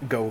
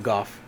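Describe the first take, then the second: First: The name ends on a vowel, with no f. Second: The name ends with a clear f sound. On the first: "a lot of people call him Go, myself included" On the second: "a lot of people call him Goff"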